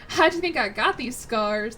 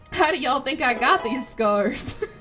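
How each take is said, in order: First: It has little or no Southern American accent. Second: It has a clear Southern American accent. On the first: The speaker calls it wrong. "That wasn't very Southern" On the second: The speaker calls it right. "Yeah, there you go"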